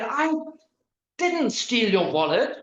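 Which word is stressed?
didn't. The stress is on "didn't".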